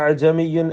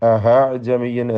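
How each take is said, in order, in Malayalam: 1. പൂർണ്ണവും വ്യക്തവുമായ ഗ്ലോട്ടൽ സ്റ്റോപ്പ് ഉച്ചരിക്കുന്നു. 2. ഗ്ലോട്ടൽ സ്റ്റോപ്പിന്റെ സ്ഥാനത്ത് എച്ച് ശബ്ദം വരുന്നു. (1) "ഹംസയല്ല, വ്യക്തമായി ഹറക്കത്തിനെ ഉച്ചരിക്കുകയല്ല" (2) "ചിലർക്ക് ഹാ കടന്നു വരും"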